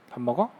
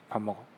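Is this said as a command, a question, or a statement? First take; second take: question; statement. First: It is said as a question. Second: It is said as a plain statement. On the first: The speaker asks whether the listener is eating a meal. "먹는 소리가 나니까" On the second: The speaker is eating a meal right now. "지금 뭐해?"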